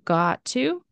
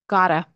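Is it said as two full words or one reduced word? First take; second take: full; reduced. First: Two separate full words are said. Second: The words merge into one reduced word.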